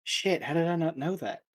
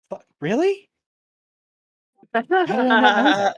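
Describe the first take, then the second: First: Kanan. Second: High, loud squeak of disbelief; mock-whispered disbelief. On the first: Acted. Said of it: "will hear it and be like". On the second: Player voices Kanan reacting to what he overheard, loud high disbelief. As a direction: blurt it out far too loudly for a self-whisper. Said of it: "he just whispers to himself".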